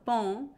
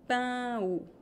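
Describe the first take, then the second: First: Only one vowel sound is pronounced. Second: Both vowels of the diphthong are pronounced. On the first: The speaker calls it wrong. "So it's not pão" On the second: The speaker calls it right. "It's pão, two vowels"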